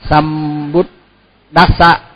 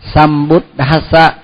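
First: The dh sound has no puff of breath. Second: The dh sound has a puff of breath. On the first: The speaker calls it wrong. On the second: The speaker calls it right.

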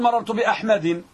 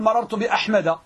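First: The name ends with an added n sound. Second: The name ends without a final n sound. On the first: The speaker calls it wrong. "لا تقول مررت بأحمد" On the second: The speaker calls it right. "ولهذا تقول مررت بأحمد"

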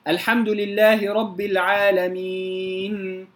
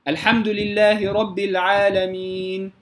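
First: The final n has a drawn-out nasal hum. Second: The final n's nasal hum ends at once. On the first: The speaker calls it wrong. "زاد على مقدار الغنة في النون الساكنة" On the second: The speaker calls it right. "فقط لا أزيد في الغنة"

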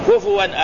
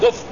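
First: The f sound is followed by an u vowel. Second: The f sound has no vowel after it. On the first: The speaker calls it right. "بضم الفاء لا بسكونيا" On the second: The speaker calls it wrong. "بعض الناس يقول كف، لا"

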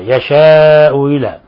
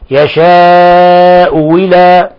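First: The second glottal stop is softened, half pronounced. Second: The second glottal stop becomes a w sound. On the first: "تسهيل الهمزة الثانية" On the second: "أو الوجه الآخر"

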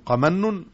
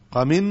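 First: The middle vowel is an open 'a' sound. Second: The middle vowel is a front 'i' sound. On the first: It is a verbal noun with no dual or plural. "من فتح قمن مصدر لا يثنى ولا يجمع" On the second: It is an adjective that takes dual and plural. "قمن وصف يثنى ويجمع"

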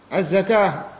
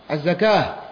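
No difference in how they are said.

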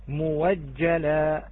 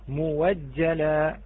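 First: The word is said with a w sound. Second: The same.

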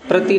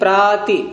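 First: The first vowel is short. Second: The first vowel is long. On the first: The speaker calls it wrong. "प्रति नहीं" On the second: The speaker calls it right. "नहीं प्राति"

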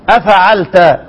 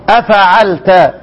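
Both takes have the same delivery.

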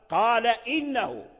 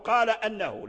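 First: The second word begins with an 'i' vowel. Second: The second word begins with an 'a' vowel. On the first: The speaker calls it right. "لا، قال إنه" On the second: The speaker calls it wrong. "خطأ أن يقول قال أنه"

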